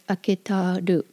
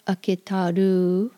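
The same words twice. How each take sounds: First: The final U vowel is clipped short. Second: The final U vowel is drawn out long. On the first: The speaker calls it right. "clip the U short" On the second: The speaker calls it wrong. "It's not aketaru"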